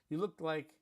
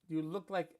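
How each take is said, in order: The two takes are said the same way.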